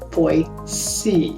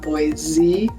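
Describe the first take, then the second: First: The middle consonant is an s sound. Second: The middle consonant is a z sound. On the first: This is how it is supposed to be said. The speaker calls it right. "you're supposed to say Boise" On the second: This is how people from elsewhere say it. The speaker calls it wrong. "with a Z sound like Boise"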